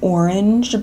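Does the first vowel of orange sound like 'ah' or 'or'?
or. The first vowel sounds like 'or'. "Sometimes if I like realize I'm doing it, I'll say like"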